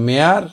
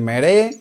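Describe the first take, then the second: First: It is said as one gliding syllable, 'mare'. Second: It is said as two syllables, 'meh-reh'. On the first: The speaker calls it right. "মেয়ার উচ্চারণ হবে" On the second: The speaker calls it wrong. "মেরে উচ্চারণ হবে না"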